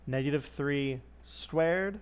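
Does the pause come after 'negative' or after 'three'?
after three. There is a pause after 'three', before 'squared'. The whole negative three is squared. "Say it with an awkward pause"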